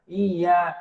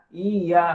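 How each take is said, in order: No difference in how they are said.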